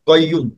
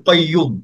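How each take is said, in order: Both takes have the same delivery.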